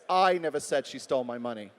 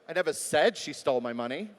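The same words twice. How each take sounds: First: The word "I" carries the stress. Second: The word "said" carries the stress. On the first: Someone else said it. "Could have been somebody else who said it" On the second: It may have been written instead. "Maybe it was in an email"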